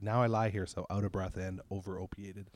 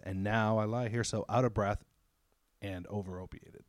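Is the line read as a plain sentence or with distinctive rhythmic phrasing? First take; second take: plain sentence; rhythmic phrasing. First: It is read as a plain spoken sentence. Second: It is delivered with an unusual rhythmic phrasing. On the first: "I just said it as a sentence" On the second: "the way he says it is"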